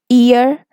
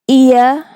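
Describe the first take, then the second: First: American accent, with an R sound at the end. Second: British accent, with no R sound at the end. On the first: "According to American English" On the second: "If you are using the British version"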